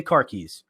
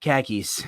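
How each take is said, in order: First: Said in the usual way. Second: "Khakis" with a New England flat a, no r; New England accent. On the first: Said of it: "everybody's like". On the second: Retold or imitated. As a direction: make car keys sound like "Khakis", New England style. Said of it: "Say, say car keys".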